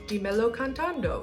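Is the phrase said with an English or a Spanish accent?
Spanish. It is said with a Spanish accent. "with an accent"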